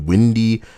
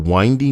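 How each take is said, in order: First: The first vowel is a short i sound. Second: The first vowel is a long i sound. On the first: The staircase is breezy. The speaker calls it wrong. "my brain thought it could be windy, and that would be hilarious" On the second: The staircase twists and turns. The speaker calls it right. "sorry, spelled the same way"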